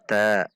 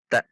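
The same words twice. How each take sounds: First: The syllable ends openly without any catch. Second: The syllable ends with an abrupt glottal catch. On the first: The speaker calls it wrong. "Kalau ta berarti tidak ada hamzahnya" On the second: The speaker calls it right. "Ta seperti terhentak pada makhraj hamzah sukun"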